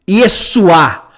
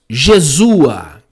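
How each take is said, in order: First: The name begins with a 'y' sound. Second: The name begins with a 'zh' sound.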